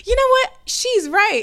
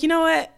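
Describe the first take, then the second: First: High, loud, fired-up realisation; mock eureka moment; sudden inspired spark. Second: Said in the usual way. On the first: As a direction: burst out like it just clicked. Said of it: "it wasn't like this spark". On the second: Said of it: "And I was like".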